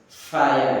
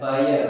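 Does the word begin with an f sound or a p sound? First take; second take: f; p. First: The word begins with an f sound. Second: The word begins with a p sound. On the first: The speaker calls it right. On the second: The speaker calls it wrong.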